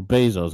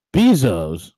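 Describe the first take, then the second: First: "Bezos" said as BAY-zohs; first-syllable BAY. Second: "Bezos" said as BEE-zohs; first-syllable BEE. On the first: Host offering the other pronunciation, "Bezos" as BAY-zohs. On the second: Host offering a name's pronunciation, "Bezos" as BEE-zohs. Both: Shown as a demonstration. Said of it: "however you wanna, you wanna, you know, pronounce his name".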